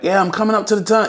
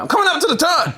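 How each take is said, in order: First: It is said plainly, without much energy. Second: It is said dramatically, with intense energy.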